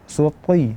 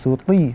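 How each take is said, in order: First: The t sound is heavy and thick. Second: The t sound is light and thin. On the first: The speaker calls it right. "dia akan nampak jelas bahwa dia itu dalam keadaan tebal" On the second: The speaker calls it wrong. "Jadi bukan suti"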